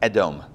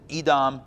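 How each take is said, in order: First: The name is pronounced with Hebrew sounds. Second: The name is pronounced with English sounds. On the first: "in Hebrew it's Edom" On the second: "in English maybe you pronounce it Edom"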